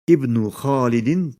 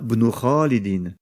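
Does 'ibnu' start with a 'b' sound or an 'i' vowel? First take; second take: i vowel; b sound. First: The word begins with an audible 'i' vowel. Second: The word begins directly with a 'b' sound. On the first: The word starts the sentence. "On prononcera donc la voyelle kasra à cet endroit lorsque le mot est situé en début de phrase" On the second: The word is linked to a preceding word. "on ne prononce aucune voyelle à cet endroit lorsqu'on fait la liaison"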